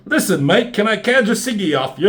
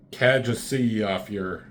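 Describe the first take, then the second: First: Mock British accent, pitched high and loud; put-on British accent. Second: Said in the usual way. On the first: Character asks for a cigarette, hammed-up British accent. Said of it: "another thing with accents they try and do".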